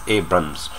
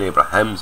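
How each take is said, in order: First: The name has two syllables, with no middle 'ra'. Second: The name has three syllables, with a middle 'ra'. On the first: The speaker calls it right. "it's Abrams. There's no H there" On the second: The speaker calls it wrong. "It's not an Abrahams"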